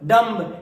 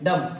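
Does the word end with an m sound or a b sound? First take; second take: b sound; m sound. First: The word ends with an audible b. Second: The word ends on an m sound. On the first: The speaker calls it wrong. "ये सब कुछ भी नहीं होता है" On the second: The speaker calls it right. "Silent होता है"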